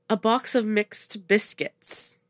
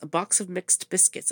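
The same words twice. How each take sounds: First: The phrase is said at a normal pace. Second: The phrase is said very fast.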